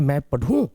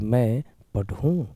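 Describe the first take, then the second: First: It is said loudly and sharply. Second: It is said softly and affectionately. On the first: It sounds like a bullying command. The speaker calls it wrong. "तेज बोलेंगे" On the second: It is a polite request for permission. The speaker calls it right. "वो भी प्यार से"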